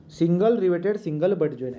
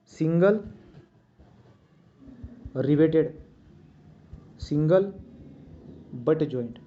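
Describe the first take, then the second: First: Said in the usual way. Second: Each word alone, long pauses between; dictated word by word. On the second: Shown as a demonstration. Teacher dictating the joint name to students, word by word. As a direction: spell it out slowly so students can write it.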